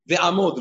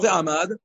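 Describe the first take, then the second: First: The last vowel is an o sound. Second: The last vowel is an a sound. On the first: The speaker calls it right. "Ve'amod, lo ve'amad" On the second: The speaker calls it wrong. "lo ve'amad"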